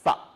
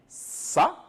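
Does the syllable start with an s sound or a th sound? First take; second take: th; s. First: It starts with a soft th sound. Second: It starts with a plain hissing s sound. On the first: The speaker calls it right. "mais on va dire ça, il faut mettre la langue entre les dents" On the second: The speaker calls it wrong. "on ne va pas dire ça"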